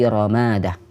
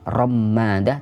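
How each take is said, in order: First: The m sound is short, single. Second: The m sound is held long, doubled. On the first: The speaker calls it right. "mim yang dibaca takhfif, tidak tasydid" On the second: The speaker calls it wrong. "bukan ramadah"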